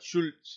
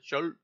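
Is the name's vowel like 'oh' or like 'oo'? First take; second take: oo; oh. First: The vowel sounds like 'oo'. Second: The vowel sounds like 'oh'. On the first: The speaker calls it wrong. "not Schultz" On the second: The speaker calls it right. "that's how I would pronounce it"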